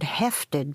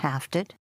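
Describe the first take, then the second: First: The first vowel is an 'e' sound. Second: The first vowel is an 'a' sound. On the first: This is how it is said in Scotland. "today in Scotland still they use the word hefted, that's how they pronounce it" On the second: This is the other, non-Scottish form. "rather than hafted"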